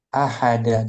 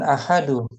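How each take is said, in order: First: The word ends with an 'a' vowel. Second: The word ends with a 'u' vowel. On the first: The speaker calls it right. "di fathah kedua-duanya" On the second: The speaker calls it wrong. "jangan ahadu"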